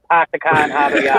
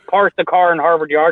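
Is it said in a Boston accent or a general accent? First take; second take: Boston; general. First: It is said in a Boston accent. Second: It is said in a general accent.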